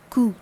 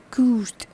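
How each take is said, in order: First: "court" as "koo", final consonants left off; silent T. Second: "court" as "koort", final T sounded; T pronounced. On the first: Teacher models the word for short, T sound absent. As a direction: say "court" ending on the vowel, T absent. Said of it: "here T sound is absent". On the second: Teacher models the feminine form of short, T sound pronounced. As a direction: finish "court" on an audible T. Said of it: "Here the T sound is pronounced". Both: Shown as a demonstration.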